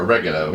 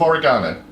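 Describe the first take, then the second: First: It is said with an American pronunciation. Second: It is said with a British pronunciation.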